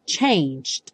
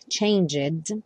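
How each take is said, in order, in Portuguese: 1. O g passa direto para um d final curto. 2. Uma vogal extra é pronunciada antes do d final. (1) "E faz um D bem curtinho" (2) "como o E não aparece, você não vai dizer changed"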